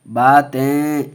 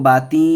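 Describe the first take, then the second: First: The word ends in a nasalized 'en' sound. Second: The word ends in a plain 'i' sound. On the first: The speaker calls it right. "थोड़ा खींच के पढ़ेंगे" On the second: The speaker calls it wrong. "इसको बाती नहीं पढ़ेंगे"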